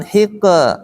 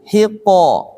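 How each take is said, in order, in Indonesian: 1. Vokal setelah konsonan terdengar tipis, seperti e. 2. Vokal setelah konsonan terdengar tebal, seperti o. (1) "Kalau hiqe jadi tipis" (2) "bukan hiqe"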